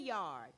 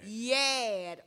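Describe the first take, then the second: First: The word is said with the r sound. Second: The word is said without the r sound. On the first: This is not how Gullah speakers say it. "we do not say yard" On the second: This is how Gullah speakers say it. "In that language, we say"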